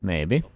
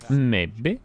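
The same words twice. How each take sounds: First: Said in the usual way. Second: Sing-song Norwegian lilt; Norwegian accent. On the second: Shown as a demonstration. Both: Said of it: "That was my Norwegian accent".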